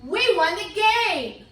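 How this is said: It is said with excited, lively expression. The speaker is thrilled about the win. The speaker calls it right. "that means you need to say it excited"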